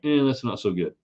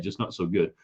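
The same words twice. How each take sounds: First: Mock shrug. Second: Said in the usual way. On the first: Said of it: "just kinda like". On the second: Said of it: "Not bad".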